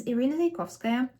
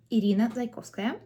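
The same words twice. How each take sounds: First: Said in the usual way. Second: Irina Zaykovskaya with Russian vowels and rolled r; native Russian pronunciation. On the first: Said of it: "or as a native Russian speaker". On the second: Shown as a demonstration. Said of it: "or as a native Russian speaker, I should say".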